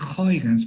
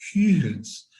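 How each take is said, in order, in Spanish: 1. El nombre se dice con sonidos ingleses. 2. El nombre se dice con sonidos neerlandeses. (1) "Huygens es lo que dice un anglófono" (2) "La G es una G suave"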